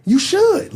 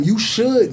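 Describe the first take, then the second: First: Should pushed up high and rising; You should lifted high, the word should leaned on hard; emphatic You should. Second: Said in the usual way. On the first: Real, not acted. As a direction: insist on should, much higher. Repeats the advice, second time stronger.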